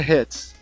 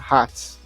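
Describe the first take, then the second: First: It has a breathy h and an e-like vowel. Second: It is read with Portuguese letter sounds. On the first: "Mas em inglês é hats" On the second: "Em português, a gente falaria essa palavra hats"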